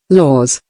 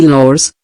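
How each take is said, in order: First: Laws said as lawz with no r sound; correct pronunciation. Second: Said in the usual way. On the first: Shown as a demonstration.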